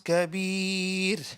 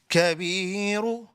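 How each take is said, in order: First: The word ends on a silent consonant. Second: The word ends with a short final vowel. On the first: The reciter stops at this word. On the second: The reciter continues without stopping.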